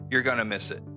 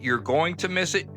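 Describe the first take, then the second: First: "Going to" is reduced to "gonna". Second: "Going to" is pronounced in full.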